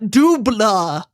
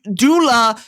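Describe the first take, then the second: First: It is said with a b sound. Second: It is said with no b sound. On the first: The speaker calls it wrong. "not Dubla" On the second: The speaker calls it right. "It's du- Dula"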